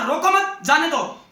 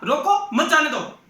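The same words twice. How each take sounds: First: रोको मत joined, break, then जाने दो; pause after मत. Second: रोको set apart, then मत जाने दो together; pause after रोको. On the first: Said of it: "यदि उसने ये कहा होता". (रोको मत साथ में, फिर ठहरकर जाने दो) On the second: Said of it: "और उसने क्या कहा?". (रोको पर रुककर, मत जाने दो एक साथ) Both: Shown as a demonstration.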